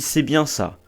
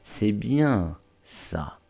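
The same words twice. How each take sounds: First: It is said plainly, without stress on bien. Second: Bien is stressed and drawn out.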